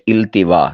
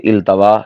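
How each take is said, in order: First: The t is followed by a short i vowel. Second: The t is followed by a short a vowel. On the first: The speaker calls it right. "ता के ज़ेर के साथ" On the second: The speaker calls it wrong. "इसे इल्तवा कह देते हैं।"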